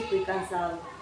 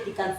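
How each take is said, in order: First: Every sound is pronounced in full. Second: Some sounds are dropped or swallowed. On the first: "cuando una persona dice" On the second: "pero para nosotros"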